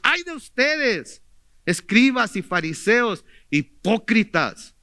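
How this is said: It is said in an angry, exclaiming tone.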